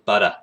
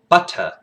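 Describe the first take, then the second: First: The T in the middle sounds like a D. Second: The T in the middle is crisp and hard. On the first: "they almost turn the D T's into D's" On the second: "like in English would kind of sound like, you know, where you're you hard pronounce T's"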